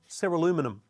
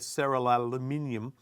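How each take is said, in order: First: It is said the American way, ending -inum. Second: It is said the non-American way, ending -inium.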